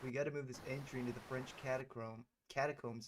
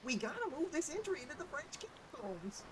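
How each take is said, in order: First: It is read in a plain, ordinary voice. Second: It is read in a put-on character voice.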